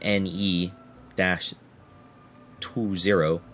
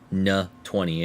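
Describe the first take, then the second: First: The name is spelled out as separate letters. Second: The name is said as a single syllable.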